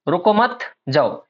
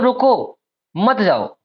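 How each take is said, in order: First: There is a pause after मत. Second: There is a pause after रुको.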